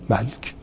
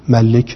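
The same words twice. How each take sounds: First: The l sound carries no vowel after it. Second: A short i vowel follows the l sound. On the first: "ملک به اسکان لام" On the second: "اصلش ملک بوده ولی کسره رو تخفیف داده"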